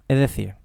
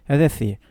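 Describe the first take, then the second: No difference in how they are said.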